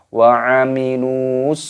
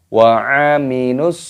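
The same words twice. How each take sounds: First: The vowel is held long before the s. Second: The vowel is short and merges into the s. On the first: The speaker calls it wrong. "Jangan dibaca wa aminus. Nah, tidak boleh" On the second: The speaker calls it right. "Harus langsung dimasukkan, diidghamkan kepada huruf shadnya ini. Wa aminus, eh, seperti itu"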